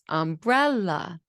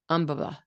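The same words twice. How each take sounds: First: The second syllable is stressed and rises. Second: All three syllables get equal stress. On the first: This is the usual way the word is said. "the second syllable rises" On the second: This is how a child with stress difficulties says it. "equal stress"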